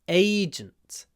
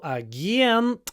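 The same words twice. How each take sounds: First: The stress is on the first syllable. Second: The stress is on the second syllable. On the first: "In English it's on the first syllable" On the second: "in Russian the stress is on the second syllable"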